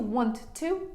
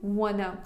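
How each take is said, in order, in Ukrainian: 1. Обидва слова вимовляються повністю. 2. Два слова зливаються в одне скорочене слово.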